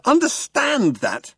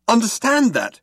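First: Very high, slow outraged repeat. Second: High indignant shout. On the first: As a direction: drag it out in disbelief. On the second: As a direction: yell it in disbelief. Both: A narrator's reading. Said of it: "shouted Arthur".

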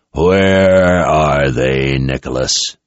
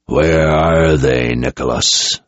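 First: Very slow, low, menacing; dangerous question. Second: Slow, lower, menacing demand; dangerous low question. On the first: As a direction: drag the question out as a threat. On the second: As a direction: press him slowly, barely contained threat. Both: Acted. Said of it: "as dangerous sounding a question".

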